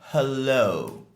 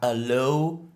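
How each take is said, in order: First: The word starts with a clear h sound. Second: The word starts without an h sound. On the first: The speaker calls it right. "Le H est bien prononcé. ... mais hello" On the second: The speaker calls it wrong. "C'est pas hello"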